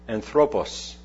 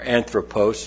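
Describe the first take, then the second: First: It is pronounced in a Greek manner. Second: It is pronounced in an English manner. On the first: "the Greek word anthropos" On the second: "if you want to pronounce it with more of an English bent"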